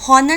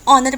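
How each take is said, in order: First: The word begins with an audible h sound. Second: The word begins directly with a vowel sound. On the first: The speaker calls it wrong. "हॉनर नहीं पढ़ते" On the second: The speaker calls it right. "ऑनर पढ़ते हैं"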